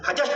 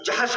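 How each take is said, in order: First: The name begins with an h sound. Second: The name begins with a j sound. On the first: The speaker calls it wrong. "हजश ना कहा कीजिए" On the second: The speaker calls it right. "इसलिए जहश कहा कीजिए"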